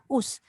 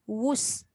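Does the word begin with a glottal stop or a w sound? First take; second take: glottal stop; w sound. First: The word begins with a glottal stop. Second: The word begins with a w sound. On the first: The speaker calls it wrong. "dia jadi hamzah. Us. Dia bukan us" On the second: The speaker calls it right. "W U S. Wus"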